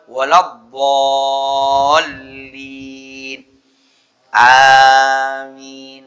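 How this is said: There is a breath pause before amin. The speaker calls it right. "Yang afdal"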